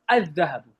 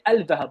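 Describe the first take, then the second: First: The L merges into a doubled DH sound. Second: The L sound is pronounced before the DH. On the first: The speaker calls it right. "You say" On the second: The speaker calls it wrong. "you don't say Al-Dhahabu"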